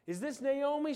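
It sounds excited and happy.

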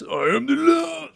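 It is said with exaggerated, showy bravado. The character is showing off and posturing. The speaker calls it wrong. "It's not that bitch ass, ... That sucks"

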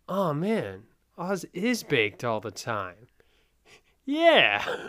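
It sounds surprised, like a sudden realization.

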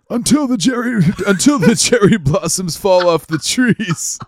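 It is said in a put-on old man voice.

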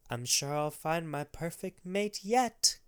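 It is said in a put-on grandma voice.

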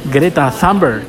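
The name is said with an English pronunciation. The speaker calls it wrong. "si fuera inglesa o americana, se pronunciaría así"

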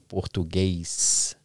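The word ends with an 's' sound. The speaker is from another Brazilian state. "any other state, they say Portuguese, you know, with the S"

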